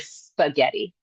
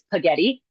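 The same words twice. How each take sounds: First: All consonants of the cluster are pronounced. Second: One consonant of the cluster is left out.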